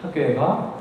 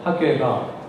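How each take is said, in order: No difference in how they are said.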